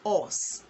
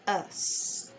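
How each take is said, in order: First: The vowel is said with rounded lips. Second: The vowel is said with neutral, unrounded lips. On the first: The speaker calls it wrong. "That is how we pronounce it in Nigeria. ... We round the lips" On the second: The speaker calls it right. "Your lips should go neutral"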